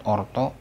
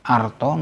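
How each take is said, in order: First: "orto" said "or-taw", opening on rounded o; "orto" with o before the r; wrong O vowel. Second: "arto" said "ar-taw", opening on ah; "arto" with ah before the r. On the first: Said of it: "not orto". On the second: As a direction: open the first vowel of "arto" to "ah". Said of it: "A followed by R is always pronounced". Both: Shown as a demonstration.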